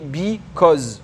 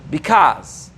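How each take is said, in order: First: It is said with a French accent. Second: It is said with an American accent. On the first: "avec un accent francophone, tu dirais because" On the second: "Avec un accent américain"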